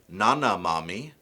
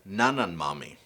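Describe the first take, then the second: First: The first word ends on a vowel, no n. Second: An n sound links the first word to mami. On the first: The speaker calls it wrong. "Instead of saying" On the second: The speaker calls it right. "you would say"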